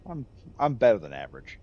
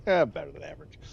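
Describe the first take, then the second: First: Plainer, offhand "better than average"; casual quip. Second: Replaying his own quip with amused swagger; cocky replay. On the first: Retold or imitated. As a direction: shrug off the compliment lightly. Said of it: "that was my response". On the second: Shown as a demonstration. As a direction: toss off "better than average" with a smug shrug. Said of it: "Like, yeah, that, that was my response".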